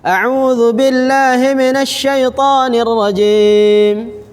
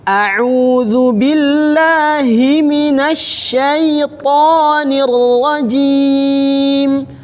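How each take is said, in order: First: Vowels and letters are said lightly and quickly. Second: Vowels and letters are fully drawn out and articulated. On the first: The speaker calls it wrong. "Sudah benar secara pendengaran, sudah benar, tapi belum tahqiq, belum sempurna" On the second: The speaker calls it right. "Harokatnya disempurnakan, hurufnya disempurnakan"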